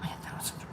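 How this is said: The phrase is whispered. The condition is treated as something shameful to hide. The speaker calls it wrong. "I'm not trying to whisper that like"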